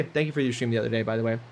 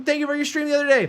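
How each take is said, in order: First: Said in the usual way. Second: Put-on higher East Coast Canadian accent. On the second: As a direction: thank them in a thick Canadian accent. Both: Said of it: "I'm doing my Canadian accent right now".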